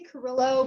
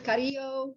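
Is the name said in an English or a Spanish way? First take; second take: English; Spanish. First: The name is said with English sounds. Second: The name is said with Spanish sounds. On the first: "I pronounce it the Caucasian way" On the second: "but I'm sure it's"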